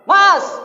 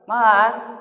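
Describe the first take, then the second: First: It is snapped out as a shout. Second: It is called somewhat louder.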